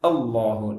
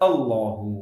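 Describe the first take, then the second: The two takes are said the same way.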